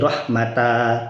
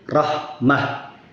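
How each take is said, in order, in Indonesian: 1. Kata ini berakhir dengan vokal a terbuka. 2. Kata ini berakhir dengan bunyi h. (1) "kalau berhenti tidak menjadi rahmata" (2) "tetapi menjadi rahmah"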